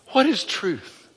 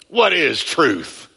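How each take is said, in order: First: The question sounds earnest and sincere. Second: The question sounds mocking and sarcastic. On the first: The asker genuinely wants an answer. "He didn't say, tell me, teacher" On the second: The asker is mocking the idea of truth. "That's how he said it"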